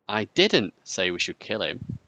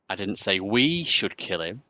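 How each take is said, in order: First: The stress falls on the word 'didn't'. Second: The stress falls on the word 'we'.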